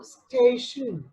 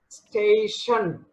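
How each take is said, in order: First: Only sh and n are heard, no vowel. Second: A clear vowel is heard between sh and n. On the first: The speaker calls it right. "saying station is correct pronunciation" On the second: The speaker calls it wrong. "station is wrong. It is incorrect"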